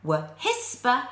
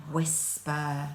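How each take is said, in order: First: "whisper" with an h after the w, like "wuh-hisper"; wrong h sound. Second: "Whisper" with a plain w and no h; correct wh sound. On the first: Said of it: "You don't say". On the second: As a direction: say "Whisper" cleanly as "wisper". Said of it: "You know your er sound". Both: Shown as a demonstration.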